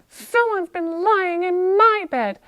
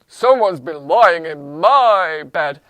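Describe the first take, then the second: First: It is said in a medium-pitched voice. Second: It is said in a deep, low-pitched voice. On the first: "in her medium voice" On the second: "in his deep voice"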